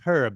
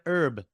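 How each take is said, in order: First: The name starts with an audible H sound. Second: The name starts with a vowel, no H. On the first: This is how Europeans say the name. The speaker calls it right. "there's an actual H in it and you should pronounce it" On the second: This is how Americans say the name. The speaker calls it wrong. "In the States, we'd call him"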